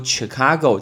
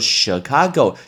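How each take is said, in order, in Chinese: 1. 这个单词以 'ch' 音开头。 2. 这个单词以 'sh' 音开头。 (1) "很多人会说Chicago，这是错的" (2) "是sh 的发音"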